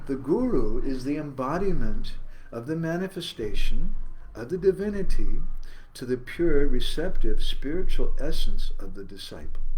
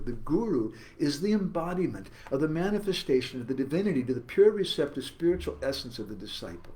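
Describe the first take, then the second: First: The sentence is read slowly. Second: The sentence is read quickly.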